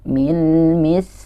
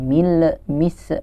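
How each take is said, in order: First: The final consonants are held smoothly without bouncing. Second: The final consonants are released with a bouncing echo. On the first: The speaker calls it right. "tapi dialirkan saja, tetap ditahan" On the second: The speaker calls it wrong. "Jangan dibalikin, jangan mil mis"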